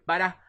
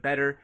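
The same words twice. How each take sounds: First: "better" ending in uh instead of er; Boston pronunciation. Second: Said in the usual way. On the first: Shown as a demonstration. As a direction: say "better" as bettah, R dropped. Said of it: "uh instead of the er". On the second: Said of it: "instead of the er".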